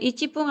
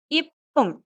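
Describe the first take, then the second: First: It begins with ichi followed by p. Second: It begins with a short ip, with no chi. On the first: The speaker calls it wrong. "Bukan ichipung" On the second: The speaker calls it right. "tapi ipung"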